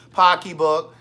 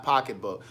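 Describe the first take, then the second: First: "Pocketbook" said loudly as "pocky-book", dropping the t; Maryland pronunciation. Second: Said in the usual way. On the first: Shown as a demonstration. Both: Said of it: "that's how they say it in Maryland".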